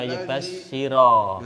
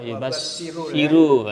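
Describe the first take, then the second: First: The word ends with an 'a' vowel. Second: The word ends with a 'u' vowel. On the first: The speaker calls it right. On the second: The speaker calls it wrong.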